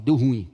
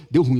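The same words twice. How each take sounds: First: Put-on teen slang. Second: Put-on teen slang repeated. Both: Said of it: "o adolescente fala".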